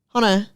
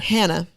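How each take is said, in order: First: The name is said with a British accent. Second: The name is said with an American accent. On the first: "And they say Hunter" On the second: "that's how we pronounce it here in the States"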